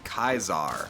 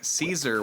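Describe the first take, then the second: First: The word begins with a hard K sound. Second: The word begins with a soft S sound.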